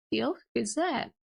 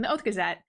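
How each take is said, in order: First: OATH GAZETTE echoed with a rising end; "Oath Gazette" turned into a question. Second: OATH GAZETTE stated with a falling end; matter-of-fact correction on "Oath Gazette"; correcting statement. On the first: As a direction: repeat "Oath Gazette" as a puzzled question, lifting on Gazette. Retold questioning echo of name. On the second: Retold correction of a name. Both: Retold or imitated.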